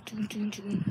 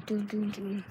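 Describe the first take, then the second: First: "Doom, doom, doom" breathed out without voice; whispered doom doom doom. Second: Said in the usual way. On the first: Pretend. Sneaking past parents, hushed whisper.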